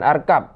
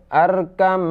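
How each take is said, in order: First: The word ends with a b sound. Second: The word ends with an m sound. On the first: The speaker calls it wrong. "bukan arkab" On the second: The speaker calls it right. "karena diidghamkan ke dalam mim maka menjadi"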